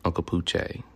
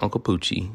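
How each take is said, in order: First: Poochie is said in a French-sounding way. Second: Poochie is said in a plain English way. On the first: The speaker calls it right. "because it's French" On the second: The speaker calls it wrong. "It's not"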